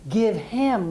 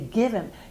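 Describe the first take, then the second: First: The h in him is clearly pronounced. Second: The h is dropped, linking the words. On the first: "Instead of give him" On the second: "we drop the H and we link it to the word before"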